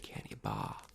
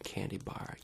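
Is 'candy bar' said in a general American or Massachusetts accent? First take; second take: Massachusetts; general American. First: It is said in a Massachusetts accent. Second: It is said in a general American accent. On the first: "If you're from Massachusetts, you say candy bar" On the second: "you don't say candy bar"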